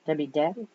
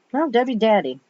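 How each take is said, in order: First: "Dabby" said with a b, unsure rising; "Debbie Dabby" with a questioning rise; wrong name reading. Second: "Daddy" said with a d, firm; "Debbie Daddy" said firmly as the correction; corrected name. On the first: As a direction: misread the name as "Dabby", asking. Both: Shown as a demonstration.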